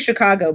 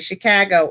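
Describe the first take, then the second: First: It is said in the speaker's own accent. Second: It is said in a local Chicago accent.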